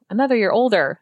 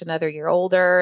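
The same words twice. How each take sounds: First: It sounds excited and celebratory. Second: It sounds dismayed and reluctant. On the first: Aging is something to celebrate. The speaker calls it right. "we really need to flip that and say, ... That's amazing" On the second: Aging is something to dread. The speaker calls it wrong. "my gosh"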